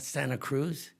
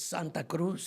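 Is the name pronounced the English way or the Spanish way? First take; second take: English; Spanish. First: The name is said with an English pronunciation. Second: The name is said with a Spanish pronunciation. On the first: The speaker calls it wrong. "but it's not Santa Cruz" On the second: The speaker calls it right. "it's Santa Cruz"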